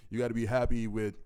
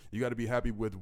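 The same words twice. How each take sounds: The two takes are said the same way.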